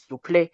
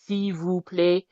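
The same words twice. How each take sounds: First: The syllables are squeezed into a shortened form. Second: Every syllable is pronounced fully and clearly. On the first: "It's just shortened" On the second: "usually if you want to say please in French, you can say"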